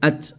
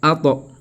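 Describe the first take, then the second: First: The final consonant stops cleanly with no echo. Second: The final consonant is released with an echoing bounce. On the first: This is ordinary general reading. "Là-bas, on a lu at" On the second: This is Quranic recitation applying qalqala. "l'exception... tu appliques la là ici"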